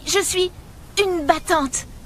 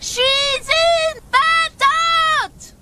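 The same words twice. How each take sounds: First: It is said quietly and hesitantly. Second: It is said loudly and with energy.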